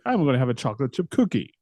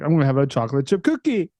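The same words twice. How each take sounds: First: The pitch falls on the final word. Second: The pitch does not fall on the final word.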